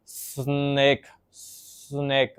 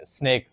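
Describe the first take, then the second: First: स्नेक with the s stretched very long and slow; prolonging स्नेक like a stuttering child; prolonged snake. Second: Said in the usual way. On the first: Shown as a demonstration. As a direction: drag out the s of स्नेक. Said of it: "स्नेक को बहुत लंबा करके बोलना". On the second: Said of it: "अगर उन्होंने बोलना है".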